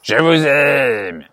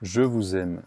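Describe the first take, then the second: First: It is said aggressively. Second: It is said gently and simply.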